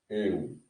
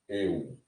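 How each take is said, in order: The two takes are said the same way.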